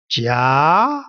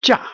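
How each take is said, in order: First: Jia drawn out and rising steadily; long upward glide on jia; second tone. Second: Short Jia falling sharply; quick downward plunge on Jia; fourth tone. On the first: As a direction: sweep jia all the way up in pitch. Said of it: "all the way up". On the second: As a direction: drop Jia from high all the way down. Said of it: "This one is going all the way down". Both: Shown as a demonstration.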